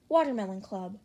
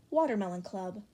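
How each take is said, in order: Both takes have the same delivery.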